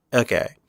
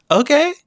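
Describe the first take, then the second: First: Said in the usual way. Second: "Okay?" squeaked up high, loud, rising; high-pitched questioning. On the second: Acted. Reviewer joking after saying nobody saw it coming, high-pitched questioning.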